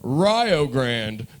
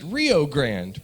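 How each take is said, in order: First: Rio rhymes with Ohio. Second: Rio does not rhyme with Ohio. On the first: It is the local name. The speaker calls it wrong. "Rio rhymes with Ohio" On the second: It is read the way it is spelled. The speaker calls it right. "you would probably pronounce it Rio Grande"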